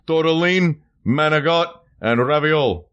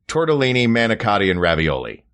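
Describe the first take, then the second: First: It is said in an East Coast accent. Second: It is said in a neutral accent.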